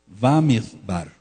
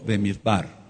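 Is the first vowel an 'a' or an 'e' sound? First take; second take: a; e. First: The first vowel is pronounced as 'a'. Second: The first vowel is pronounced as 'e'. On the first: "Algunos lo, lo ponen con una A en la fonética" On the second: "otros con una E"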